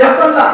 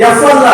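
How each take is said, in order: The two takes are said the same way.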